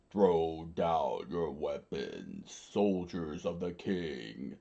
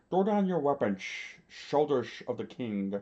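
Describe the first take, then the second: First: Low, slow, drawn-out royal order; commanding king. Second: Higher, slurred, labored command; wounded commander. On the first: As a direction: proclaim it slowly in a deep voice. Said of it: "the king screamed out". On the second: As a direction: slur the order as if badly beaten. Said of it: "Lord Chaka screamed out". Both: A narrator's reading.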